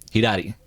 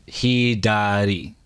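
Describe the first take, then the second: First: "hidari" quick, as said to somebody; conversational "hidari", syllables run together; natural speed. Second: Learner's slow "Hidari", syllable by syllable; very slow, careful "Hidari". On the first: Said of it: "how would someone actually say it". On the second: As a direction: stretch "Hidari" out as hee-daa-dee. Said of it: "I'm saying it slow". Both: Shown as a demonstration.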